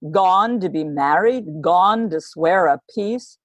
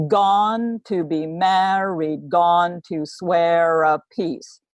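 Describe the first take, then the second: First: "gone" leading, lightly acted anger; as the queen storming in, mild fury; a hint of furious Constance. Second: Very slow, "gone" hit hard each time; trochee rhythm. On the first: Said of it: "So she would say". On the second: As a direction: stress the first beat of each phrase. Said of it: "she comes in and she says". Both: Shown as a demonstration.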